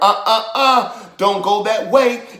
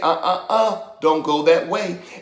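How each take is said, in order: First: It is said loudly. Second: It is said quietly.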